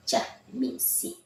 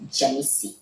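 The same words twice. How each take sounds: First: Jamisi, voiced high and whispered with a rise; name said high and breathy. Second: Said in the usual way. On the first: Shown as a demonstration. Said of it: "Leave me here".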